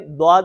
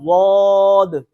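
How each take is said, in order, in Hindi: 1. शब्द की शुरुआत सादा d ध्वनि से होती है। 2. जीभ का किनारा ऊपर की दाढ़ों को दबाता है। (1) "इसको हमने द्वाद नहीं पढ़ना" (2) "बल्कि पढ़ना है जुबान को उधर लगाकर"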